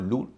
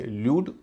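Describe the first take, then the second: First: लूड said as "lood"; no y in लूड, straight l to oo; oo variant. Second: ल्यूड said as "lyood"; a y after the l in ल्यूड; y-glide variant. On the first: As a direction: show लूड with a pure oo. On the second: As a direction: show ल्यूड with a "yoo" vowel. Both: Shown as a demonstration. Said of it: "ल्यूड और लूड दोनों कहते हैं".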